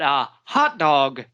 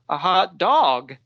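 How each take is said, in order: First: The stress falls on the word hot. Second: The stress falls on the word dog. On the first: A sausage in a bun to eat. "that is something that people would eat" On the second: A dog that feels hot. "like a dog in the street"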